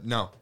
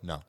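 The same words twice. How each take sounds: First: The word is said flatly and bluntly. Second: The word is said softly and gently. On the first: The joke is rejected without softening. "That just say it bluntly like that" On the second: The joke is rejected kindly. "I would probably be much more nicer and I'd just go"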